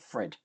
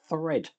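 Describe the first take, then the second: First: The word begins without a 'th' sound. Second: The word begins with a clear 'th' sound. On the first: The speaker calls it wrong. "not thread" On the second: The speaker calls it right. "th I should say thread"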